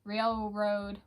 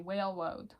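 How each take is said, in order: First: The word begins with an R sound. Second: The word begins with a W sound.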